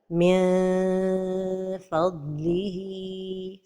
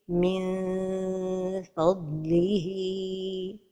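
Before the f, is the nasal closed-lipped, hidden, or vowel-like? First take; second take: vowel-like; hidden. First: The nasal is stretched into a long vowel sound. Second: The nasal is hidden with open lips before f. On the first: The speaker calls it wrong. "trop éloigner la langue du palais supérieur... comme si on prononçait un med" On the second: The speaker calls it right. "la prononciation correcte"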